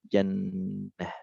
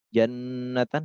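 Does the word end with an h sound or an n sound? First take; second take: h sound; n sound. First: The word ends with a soft h sound. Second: The word ends with t, a vowel and n. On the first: The reader stops at this word. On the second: The reader continues without stopping.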